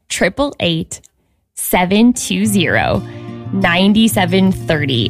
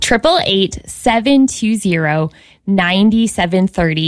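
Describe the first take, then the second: First: The number is said more slowly. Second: The number is said at normal speed.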